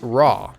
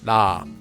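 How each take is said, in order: First: The first sound is a plain English R. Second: The first sound is a soft tapped L-R sound. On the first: The speaker calls it wrong. "and it's definitely not raw" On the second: The speaker calls it right. "we can hear that the sound would become la"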